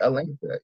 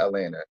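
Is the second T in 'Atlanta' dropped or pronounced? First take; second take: pronounced; dropped. First: The second T sound is clearly pronounced. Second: The second T sound is dropped. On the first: "I pronounce the T in Atlanta" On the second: "I don't call it Atlanta"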